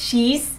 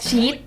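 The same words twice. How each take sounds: First: The word ends with an audible final consonant. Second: The word ends without a final consonant. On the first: The speaker calls it right. "ภาษาอังกฤษมันจะต้องมีตอนสุดท้ายไง" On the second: The speaker calls it wrong. "ภาษาไทยมันจะแค่"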